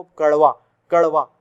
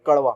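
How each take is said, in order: First: कड़वा with the tongue jerking up and down; कड़वा, ड़ flapped sharply. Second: कड़वा with a very fast flapped ड़; कड़वा, tongue up and down in an instant; quick flap. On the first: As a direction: snap the ड़ in कड़वा fast and loud. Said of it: "झटके से ऊपर". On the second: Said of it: "बहुत तेजी से". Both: Shown as a demonstration.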